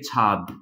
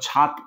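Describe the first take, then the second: First: The word ends with a d sound. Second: The word ends with a t sound. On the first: "তটা দ হয়েছে" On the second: "অঘোষ ব্যঞ্জন ছিল"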